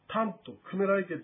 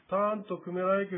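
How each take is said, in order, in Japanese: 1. フレーズ全体で音の高さが上がったり下がったりします。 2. フレーズ全体で音の高さは平らです。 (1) "英語であればこう抑揚あるように言いますけども、というようには言わない方が" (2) "割と平坦に発音するとよろしい"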